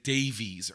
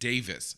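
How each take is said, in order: First: The name is said as 'Day-vees', as spelled. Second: The name is said as 'Davis', like 'Davis'. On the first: The speaker calls it wrong. "I said Davies early on, literally how it looks like it's spelled" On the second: The speaker calls it right. "Greg actually pronounces his last name Davis"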